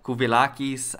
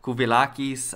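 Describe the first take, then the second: First: The name is said with a Greek accent. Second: The same.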